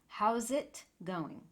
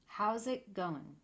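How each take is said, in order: First: All the sounds run together. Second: All the sounds run together.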